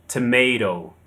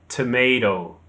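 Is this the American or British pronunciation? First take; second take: American; American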